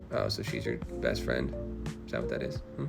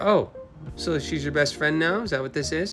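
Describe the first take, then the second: First: It is said in a sulky, petty way. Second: It is said in a plain, ordinary way.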